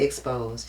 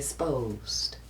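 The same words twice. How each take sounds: First: The word has its ordinary, plain pronunciation. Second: The word mimics another speaker's distinctive pronunciation. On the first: This is not how that person says it. "She don't say exposed" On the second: This is how that person says it. "She say exposed"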